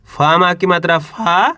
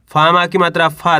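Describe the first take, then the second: First: Drawn out slowly, each sound held, rising at the end; slow syllable spelling. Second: Said in the usual way. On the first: Shown as a demonstration. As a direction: spell फा माँ की मात्रा फा out slowly for children. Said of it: "teacher spells syllable slowly". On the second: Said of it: "teacher repeats syllable quickly".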